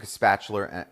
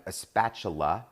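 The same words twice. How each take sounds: First: Spatula ending in an r sound, New Jersey style; New Jersey accent. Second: "spatula" slower, ending in a clean "-la" with no r; re-say "spatula" carefully, finishing on an open "ah"; careful self-correction. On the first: Cook telling viewers how she gets food out, New Jersey accent. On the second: Cook correcting her slipped accent for viewers, careful pronunciation. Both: Real, not acted. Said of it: "that's my New Jersey accent coming out".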